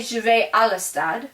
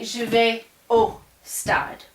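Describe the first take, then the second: First: Said in the usual way. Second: "Je vais au stade" said slowly, leaning on "au"; slow down and land on "au"; correct form. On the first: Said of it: "I couldn't say". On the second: Shown as a demonstration. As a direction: show "au stade" as the right way to say it. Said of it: "I would have to say".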